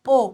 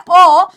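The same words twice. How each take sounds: First: ओ as a closed, rounded "oh"; OW sound. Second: ओ as an open, drawn-out "aw"; AW sound. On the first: Teacher contrasting two spellings, closed "oh" for ओ. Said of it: "ओडब्ल्यू की sound होती है". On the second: Teacher contrasting two spellings, open "aw" for ओ. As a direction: say ओ open, as in law. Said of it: "जैसे एडब्ल्यू की sound होती है". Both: Shown as a demonstration.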